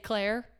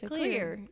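First: The vowel sounds like the one in 'air'. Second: The vowel sounds like the one in 'ear'. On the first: The speaker calls it wrong. "Would you look at the word clear and say Claire?" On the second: The speaker calls it right. "You'd look at that and say clear"

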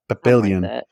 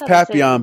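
First: The name is said the way it is spelled. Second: The name is said differently from its spelling. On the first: This is a reading based on the spelling. "it's spelt like Papillon or whatever" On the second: This is how the name is actually pronounced. "It's Papillon"

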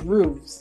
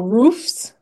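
First: The word ends with a v sound before s. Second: The word ends with an f sound before s. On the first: The speaker calls it wrong. "False. It's roofs with an S, not VES" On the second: The speaker calls it right. "like pronounce the F in there"

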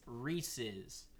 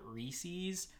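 First: The ending sounds like a plain possessive 's. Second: The ending does not sound like a possessive 's. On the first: The speaker calls it right. "you put an apostrophe S at the end of it. So it's pronounced Reese's" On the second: The speaker calls it wrong. "who think that it's called Reese's, you're wrong"

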